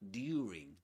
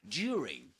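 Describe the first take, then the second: First: It uses an older, conservative British pronunciation. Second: It uses a modern, everyday British pronunciation. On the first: This is how older-style speakers said it. "In in received pronunciation in the past, usually, or the, the people that still speak with that accent, they will usually say" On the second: This is how most people say it today. "But nowadays, you will usually hear"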